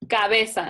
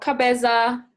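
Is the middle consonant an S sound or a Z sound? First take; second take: S sound; Z sound. First: The z is pronounced as an s sound. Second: The z is pronounced as a buzzing z sound. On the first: The speaker calls it right. "Remember, Z sounds like S" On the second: The speaker calls it wrong. "no cabeza"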